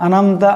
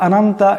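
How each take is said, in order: First: It is rushed with the throat sounds blurred. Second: It is rushed with the throat sounds blurred.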